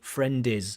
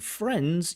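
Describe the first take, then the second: First: An extra vowel adds a second syllable. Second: The final consonants blend into one syllable. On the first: The speaker calls it wrong. "you add an extra vowel sound" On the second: The speaker calls it right. "Instead of saying friends"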